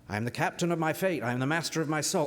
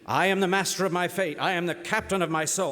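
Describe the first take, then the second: First: It is said at a normal volume. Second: It is said very loudly.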